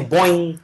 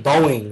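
First: The word is clipped to sound like 'bounce'. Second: The word is said with two full syllables. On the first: "They say Boeing. Like, bounce" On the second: "they don't say Boeing"

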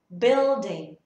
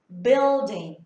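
Both takes have the same delivery.

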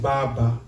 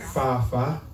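First: The consonants sound like b. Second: The consonants sound like f. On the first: The speaker calls it wrong. "not Baba" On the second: The speaker calls it right. "B in Kikuyu replaces F"

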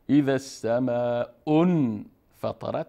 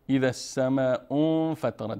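First: The n sound before f is clearly pronounced. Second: The n sound before f is hidden, nasalized. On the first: The speaker calls it wrong. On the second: The speaker calls it right.

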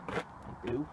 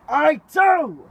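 First: It is said weakly, without conviction. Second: It is said forcefully, with conviction.

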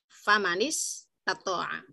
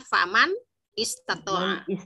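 First: The final n links to the next word. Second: The words are said separately, without linking. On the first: This is how it is read continuously. "kalau dibacanya disambung" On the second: This is the underlying form of each word. "Aslinya dia adalah"

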